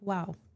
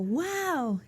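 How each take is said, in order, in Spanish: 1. Se dice de forma plana, sin entusiasmo. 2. Se dice con mucho entusiasmo. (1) "el estudiante lo repite como" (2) "si la persona dijo"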